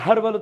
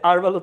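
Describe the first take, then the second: First: The word starts with an audible h sound. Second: The word starts with a vowel, no h. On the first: The speaker calls it wrong. "হারবাল উচ্চারণ করলে হবে না" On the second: The speaker calls it right. "আরবাল উচ্চারণ করতে হয়"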